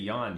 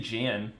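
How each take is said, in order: First: The name is said in a Norwegian way. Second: The name is said in an English way. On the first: The speaker calls it right. "if it's like a Norwegish thing, they say Jan" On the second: The speaker calls it wrong. "they don't say Jan"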